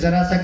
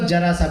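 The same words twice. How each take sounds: First: The first word begins with a 'z' sound. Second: The first word begins with a 'j' sound. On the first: The speaker calls it right. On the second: The speaker calls it wrong.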